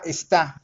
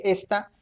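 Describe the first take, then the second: First: "está" stressed on the final TÁ; careful "está" with the accent at the end; stress on last syllable. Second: "esta" stressed on the opening ES; careful "esta" with the weight up front; stress on first syllable. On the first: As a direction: say "está" as es-TÁ, leaning on the second syllable. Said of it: "la acentuada nos refiere al verbo estar". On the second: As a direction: say "esta" as ES-ta, second syllable unstressed. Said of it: "sin acento". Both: Shown as a demonstration.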